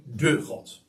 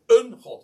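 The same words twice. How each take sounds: First: "de" said as a full, stressed word before God. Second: "een" singled out with emphasis before God; stress on "een". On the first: Preacher underlining which God is meant, stress on "de". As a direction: lean on the article "de", marking it as the one and only. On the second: Preacher rejecting just any god, stress on "een". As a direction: lean on the article "een" as the one to reject. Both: Shown as a demonstration. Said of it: "Ik hou ervan om dat zo even te benadrukken".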